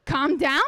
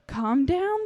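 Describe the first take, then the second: First: Calm down? thrown back, higher and scornful; indignant scoff. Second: Calm down said soothingly, gently rising; mother gently soothes raging daughter with calm down; calm soothing plea. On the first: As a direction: sneer the words back at her. Allison mocks mother's plea. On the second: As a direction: gently coax her with calm down. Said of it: "she calmly says". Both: Acted.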